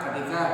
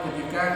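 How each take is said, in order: Both takes have the same delivery.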